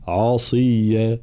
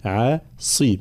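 First: عصيا with the ain made heavy; the wrong way: thicken the ain in عصيا. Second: عصي slow, with a light ain and a heavy s; slow عصي, ain kept thin; correct light ain. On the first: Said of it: "فلا نفخم العين خاصة". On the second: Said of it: "لا، عصي". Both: Shown as a demonstration.

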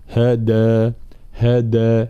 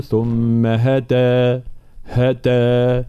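First: هدى with a firm, fully voiced د; true dal. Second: ثم هدى with د half devoiced toward t; faulty dal between d and t; weakened dal. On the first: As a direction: strike a clear d in هدى and hold the vowel. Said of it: "هذا صوت الدال". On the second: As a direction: slowly recite هدى with the d sounding almost like ت. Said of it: "هذه الدال بين الدال والتاء". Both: Shown as a demonstration.

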